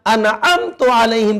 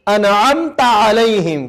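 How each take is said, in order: First: انعمت علیہم said with تُ instead of تَ; wrong pronunciation. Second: انعمت علیہم slow, with تَ not تُ; slow recitation. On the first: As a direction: show the mistake انعمت as anamtu. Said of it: "تا کے اوپر پیش پڑھ دیا". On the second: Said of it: "سورہ فاتحہ کی یہ چھٹی آیت ہے". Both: Shown as a demonstration.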